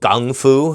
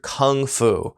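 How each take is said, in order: First: The first word starts with a G sound. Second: The first word starts with a K sound.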